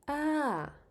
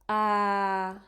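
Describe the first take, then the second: First: The pitch falls from high to low. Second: The pitch stays level at a middle height. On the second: "that's middle"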